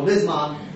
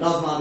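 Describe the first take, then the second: First: The first vowel is an 'i' sound. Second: The first vowel is an 'a' sound. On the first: This is the form others use. "they all say Lizman" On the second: This is the form this community uses. "we say Lazman"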